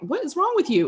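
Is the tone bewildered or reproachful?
bewildered. It sounds puzzled and exasperated, half amused. The listener did something baffling. "Who leaves bobby pins in the refrigerator?"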